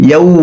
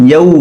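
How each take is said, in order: The two takes are said the same way.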